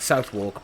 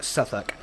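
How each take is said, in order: First: It is said as spelled, with 'south' and 'wark'. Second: It is said short, like 'suth-uk', without 'wark'. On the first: The speaker calls it wrong. "I've been pronouncing it like Southwark" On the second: The speaker calls it right. "but it was actually more like Suffolk"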